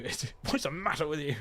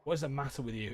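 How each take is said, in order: First: Reading the line through a laugh; amused reread with a laugh. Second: Said in the usual way. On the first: Acted. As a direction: crack up as you reread it.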